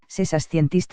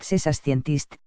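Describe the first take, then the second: First: "scientist" lifted at the end, rising like a question; rising question tune. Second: Said in the usual way. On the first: Shown as a demonstration. Showing a question made only by the tone of voice, "scientist" rising. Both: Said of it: "Utiliza la entonación".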